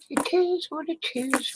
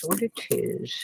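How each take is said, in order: First: Sing-song resignation. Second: Said in the usual way. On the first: Real, not acted. To herself over lost pennies, sing-song resigned. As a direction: let it float up and linger, shrugging it off.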